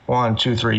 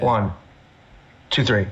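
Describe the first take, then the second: First: The count has a steady, even rhythm. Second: The count has a varied, uneven rhythm.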